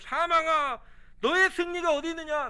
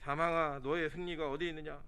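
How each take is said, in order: First: It is shouted loudly and forcefully. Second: It is read in a flat, plain voice.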